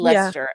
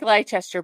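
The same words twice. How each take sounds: First: It is pronounced shorter than the spelling suggests. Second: It is pronounced the way it is spelled. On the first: The speaker calls it right. "but it's" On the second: The speaker calls it wrong. "when you look at it spelling, Shannon, it looks like Leicester"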